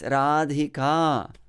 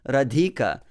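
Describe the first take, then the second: First: The final vowel is long. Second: The final vowel is short. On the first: The speaker calls it right. "it's Radhika" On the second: The speaker calls it wrong. "It's not Radhika"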